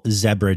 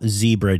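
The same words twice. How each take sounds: First: Zebra is said the other regional way. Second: Zebra is said the usual American way.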